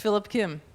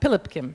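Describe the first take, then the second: First: The name is said with English sounds. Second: The name is said with Korean sounds. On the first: The speaker calls it wrong. "but it's not pronounced that way" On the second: The speaker calls it right. "but I think it's it's uh"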